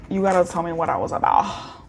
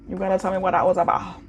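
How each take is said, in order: First: Said in the usual way. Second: Quicker, pressing repeat; faster insistent repeat. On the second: Shown as a demonstration. Reader presses the viewer for an answer, quicker repeat.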